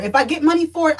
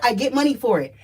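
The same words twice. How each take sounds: First: Raised first take. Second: Said in the usual way. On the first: Real, not acted.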